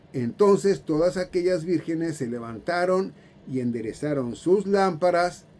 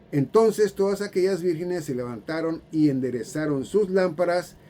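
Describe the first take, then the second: No difference in how they are said.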